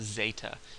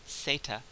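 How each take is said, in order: First: The word begins with a z sound. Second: The word begins with an s sound. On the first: The speaker calls it wrong. "there's no zeta. If you say that again, you'll sound like you have an, an English accent" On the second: The speaker calls it right. "the letter in the alphabet is pronounced as zeta"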